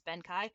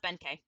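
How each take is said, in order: First: The last syllable sounds like 'kye'. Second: The last syllable sounds like 'kay'. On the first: The speaker calls it wrong. "isn't it pronounced Benkai?" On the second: The speaker calls it right. "No, it's pronounced Benkei"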